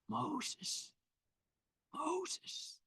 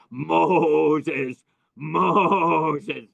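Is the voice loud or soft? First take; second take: soft; loud. First: The name is said very softly and quietly. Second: The name is called out loudly and forcefully. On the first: The speaker calls it right. "Very soft, very soft, almost missing it" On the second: The speaker calls it wrong. "It was terrible the way he did the voice of God"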